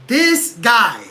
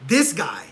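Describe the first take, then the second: First: Louder, punched out in disgust; loud disgusted outburst at the fighter; exasperated outburst. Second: Said in the usual way. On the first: Real, not acted. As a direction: blurt it out loud, fed up. Repeated exasperated phrase.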